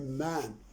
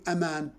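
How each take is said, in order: First: The word begins with a plain 'm' sound. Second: The word begins with the letter name 'em'. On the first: The speaker calls it right. "No, we say man" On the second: The speaker calls it wrong. "You do not say a man"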